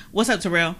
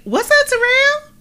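First: Said in the usual way. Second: Bright high greeting, much louder; high, loud sing-song greeting. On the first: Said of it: "'Cause I can say". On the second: Shown as a demonstration. To Terrell, showing how you say it matters: high and loud. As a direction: pitch it way up and loud. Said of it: "Then I can say".

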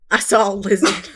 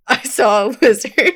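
First: Laughing through the line; words breaking into giggles; stifled giggles. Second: Trying not to laugh; fighting back a giggle; stifled giggles. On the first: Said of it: "It gets me every time". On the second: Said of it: "how many takes it took". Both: Shown as a demonstration.

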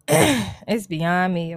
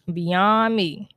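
First: Drawn out. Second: Emphatic repeat. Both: Real, not acted.

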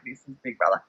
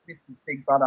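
First: Lower, softer imitation of the show voice; describing first hearing him, a low, soft imitation; Big Brother voice. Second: Lower, softer imitation of the show voice; quoting the house voice, a low, soft imitation; Big Brother voice. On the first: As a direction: sink into the low, soft announcer tone. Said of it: "you hear him say that". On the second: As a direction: drop into the announcer's low, softer tone. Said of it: "when he says".

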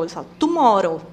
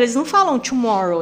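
First: "tomorrow" with a hard t and tapped r; Filipino-style "tomorrow" with crisp t and tapped r; Filipino-accented tomorrow. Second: American-style "tomorrow", opening on a tchu sound. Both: Shown as a demonstration.

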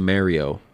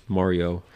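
First: Mario with an "air" first vowel; casual MAIR-ee-oh for Mario. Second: Mario corrected to an open "ah"; self-corrected MAH-ree-oh for Mario. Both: Real, not acted. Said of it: "do you say it Mario?".

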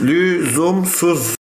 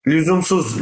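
First: "lüzumsuz" stretched slowly, syllable by syllable; drawn-out emphasis. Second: Said in the usual way. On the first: Real, not acted. Co-host dismissing the topic as needless, syllables drawn out.

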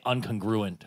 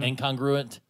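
First: Incongruent misspoken as "un-con-GRU-ent"; slip of pronunciation. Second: Incongruent with a clear "in-KONG" opening; corrected pronunciation. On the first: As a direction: say incongruent with a reduced "un-kun" opening. Self-corrects the word's pronunciation. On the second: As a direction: say incongruent as "in-KONG-gru-ent", fully articulated. Corrected retake of the word. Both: Real, not acted.

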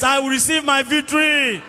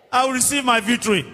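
First: With confidence. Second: Said in the usual way. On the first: Shown as a demonstration. Preacher leading the congregation to claim victory, confident declaration. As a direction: claim it boldly, stretching VICTORY. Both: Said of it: "Say it with confidence".

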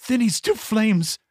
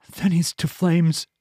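First: A much higher, strained cry of doom; frantic mad outburst. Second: A slow, higher, dragged-out mad verdict; slow mad pronouncement. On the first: Madman Eeples repeating his curse, higher and frantic. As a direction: shriek the sentence out in a frenzy. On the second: Madman Eeples condemning Kyla, slow and ominous. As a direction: lay each word down like a curse. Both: Acted.

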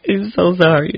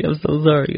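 First: Laughing apology. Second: Said in the usual way. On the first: Real, not acted. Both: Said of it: "did I just rant?".

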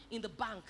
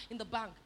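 Both takes have the same delivery.

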